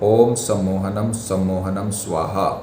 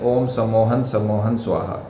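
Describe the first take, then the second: First: The repeated words end with an 'am' syllable. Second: The repeated words end without an 'am' syllable. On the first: The speaker calls it right. "यहाँ पर आपको नम जरूर लगाना है" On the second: The speaker calls it wrong. "कई लोग ये गलती करते हैं"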